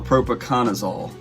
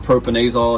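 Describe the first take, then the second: First: The word is said with five syllables. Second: The word is said with four syllables. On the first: This is how the name is properly said. The speaker calls it right. "That's look like what you actually call it" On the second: This is the speaker's own regional way of saying it. The speaker calls it wrong. "so I call it propanazole"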